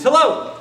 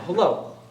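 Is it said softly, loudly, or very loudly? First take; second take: loudly; softly. First: It is said louder than before. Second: It is said at a moderate volume.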